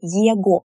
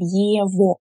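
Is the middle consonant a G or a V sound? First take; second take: G; V. First: The middle consonant is a hard g sound. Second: The middle consonant is a v sound. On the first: This is the older pronunciation, matching the spelling. "we pronounced them as they are written" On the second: This is the later dialect pronunciation that spread. "people started to pronounce them as ОВО and ЕВО"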